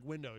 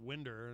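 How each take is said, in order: First: The word ends in a plain vowel, no R. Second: The word ends with an added R sound. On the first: "a word like window" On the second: "you pronounce it winder, and so there there's the R"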